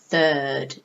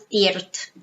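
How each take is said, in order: First: The vowel sound is held long. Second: The vowel sound is cut short. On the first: The speaker calls it right. "It's like a long sound" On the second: The speaker calls it wrong. "It's not thirt"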